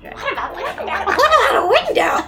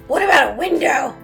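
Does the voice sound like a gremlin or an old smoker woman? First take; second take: gremlin; old smoker. First: A strange put-on voice like a gremlin. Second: A raspy voice like an old smoker woman. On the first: "Nope, I'm a gremlin" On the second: "I'm like losing the child and becoming like an old smoker woman"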